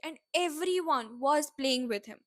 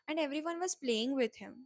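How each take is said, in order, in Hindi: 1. Everyone को ऊँची pitch के साथ ज़ोर दिया गया है। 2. Everyone को बिना ऊँची पिच के, सपाट तरीके से बोला गया है। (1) "in the first one I s- I gave importance to today, very very cute and everyone" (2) "the same statement with the normal voice"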